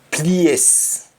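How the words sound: It is said in a Jamaican accent.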